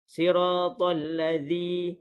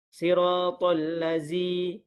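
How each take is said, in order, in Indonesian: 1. Konsonannya ialah bunyi th bersuara. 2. Konsonannya ialah bunyi z biasa. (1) "huruf zal dikeluarkan hujung lidah antara gigi atas dan juga gigi bawah" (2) "itu ialah sebutan yang salah"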